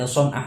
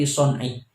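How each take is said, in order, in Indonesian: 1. Kata itu berakhir dengan vokal a. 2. Kata itu berakhir dengan vokal i. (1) "yang benar itu bukan dibaca son'ah" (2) "akan tetapi son'i"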